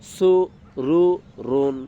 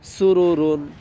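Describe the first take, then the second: First: The syllables are said slowly, one by one. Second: The syllables are said quickly, run together.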